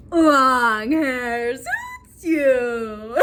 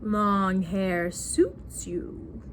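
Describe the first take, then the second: First: Loud, extremely drawn-out mock compliment; hammed-up smitten husband. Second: Very slow, low-pitched husband imitation; low smitten husband. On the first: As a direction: overdo it loudly, stretching each word out. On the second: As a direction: croon it low, stretching every word. Husband's compliment repeated lower.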